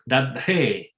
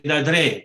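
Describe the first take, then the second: First: The middle d is released with a strong breath. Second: The middle d is quick without a breath. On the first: "This is an explosive D" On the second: "I say Dadre just to be fast"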